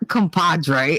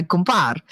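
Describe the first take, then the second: First: "compadre" with its full "-dre" ending; standard Spanish pronunciation. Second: "compar" ending on "-par", no "-dre"; clipped Italian-American pronunciation. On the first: Showing the form they don't use, full "compadre". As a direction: say "compadre" in full, all three syllables. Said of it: "not compadre". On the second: Showing the word for a buddy, shortened "compar". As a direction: say "compar" with the last syllable dropped. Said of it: "it's you're my compar". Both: Shown as a demonstration.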